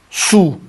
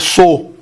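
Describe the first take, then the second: First: The vowel is a single plain 'oo' sound. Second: The vowel glides from 'o' into 'oo'. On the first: The speaker calls it right. "ela se pronuncia como su, su, e não como sou" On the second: The speaker calls it wrong. "Se fosse como sou, seria mais ou menos assim"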